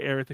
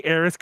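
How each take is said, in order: First: "Aerith" with a final th; th ending. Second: "Aerith" with a final s; said as Aeris. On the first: Fan offering listeners the correction, "Aerith" ending in th. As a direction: say "Aerith" as AIR-ith. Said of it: "whenever I say Aerith". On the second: Fan owning up to his habit, "Aerith" ending in s. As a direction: say "Aerith" as AIR-iss. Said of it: "correct it to Aerith". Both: Shown as a demonstration.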